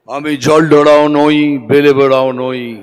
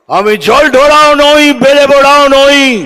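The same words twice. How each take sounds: First: It is said at a normal, softer volume. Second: It is said loudly and forcefully.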